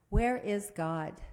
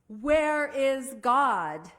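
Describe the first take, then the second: First: It is said at a normal volume. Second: It is said loudest, with a raised voice.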